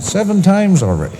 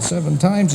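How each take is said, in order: First: High, proud report; boastful. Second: High incredulous echo; astonished. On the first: Old George bragging to his doctor, high and elated. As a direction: brag it high and eager. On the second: Doctor echoing old George's boast, astonished. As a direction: repeat it high, not quite believing it. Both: Acted.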